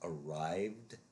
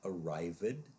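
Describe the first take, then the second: First: The ending is a plain d sound, no syllable. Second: The ending is said as a separate syllable. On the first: The speaker calls it right. "it is arrived" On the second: The speaker calls it wrong. "it is not arrived"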